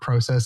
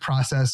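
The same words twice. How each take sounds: First: It is said with a Canadian pronunciation. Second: It is said with an American pronunciation.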